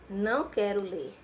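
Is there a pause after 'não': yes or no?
no. There is no pause after não.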